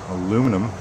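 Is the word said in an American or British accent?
American. It is said with an American accent.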